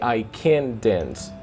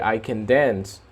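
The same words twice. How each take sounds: First: The word can carries the stress. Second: The word dance carries the stress. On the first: The speaker is not able to dance. "when you are expressing a totally opposite idea, you say" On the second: The speaker is able to dance. "When it's positive, you say"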